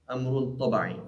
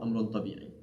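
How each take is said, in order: First: The vowel after the b is 'a'. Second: The vowel after the b is 'i'. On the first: The speaker calls it right. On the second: The speaker calls it wrong.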